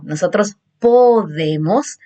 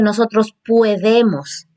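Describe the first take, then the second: First: "nosotros podemos" carefully modelled with an o; correct form. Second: "podemos" said as "puedemos" with an ue; "nosotros podemos" given the wrong ue diphthong; wrong form. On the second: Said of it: "No se dice". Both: Shown as a demonstration.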